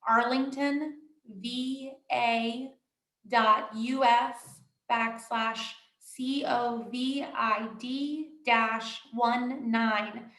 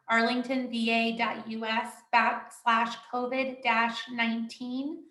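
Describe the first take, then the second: First: The address is said slowly. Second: The address is said at normal speed.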